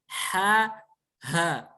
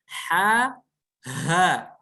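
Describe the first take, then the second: No difference in how they are said.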